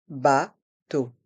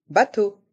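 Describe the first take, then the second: First: "Bateau" split into two slow, separate syllables. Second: Said in the usual way. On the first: Shown as a demonstration. Teacher breaking "Bateau" down for a listening quiz, syllable by syllable. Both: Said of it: "Écoutez et choisissez".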